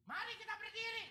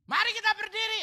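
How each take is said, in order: First: High, bright-pitched mock call to stand; mock song leader call. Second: Loud, high-pitched call to stand; hammed-up loud worship-leader call; mock song leader yell. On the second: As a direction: shout it over the crowd like the song leader. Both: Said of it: "Song leader teriak".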